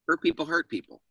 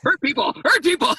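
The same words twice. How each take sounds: First: It sounds like a statement, with a pause. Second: It sounds like a command to hurt people.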